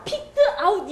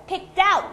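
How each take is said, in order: First: "picked out" chopped into "pik-teu, a-ut"; slow staccato "picked... out". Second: "picked out" as "pick-TOUT"; high, linked "pick-DOUT"; linked, end stressed. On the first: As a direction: say "picked" and "out" slowly apart. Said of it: "스타카토로 많이들 해요". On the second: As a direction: move the final sound of "picked" onto "out" and hit it. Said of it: "강세는 doubt에 들어갑니다". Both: Shown as a demonstration.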